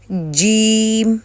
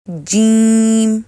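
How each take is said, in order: First: The vowel comes out through the mouth only. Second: The vowel comes out through the nose. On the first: The speaker calls it right. "ई की आवाज़ है जो कि मुंह से निकलनी चाहिए" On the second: The speaker calls it wrong. "ना कि नाक से निकलनी चाहिए"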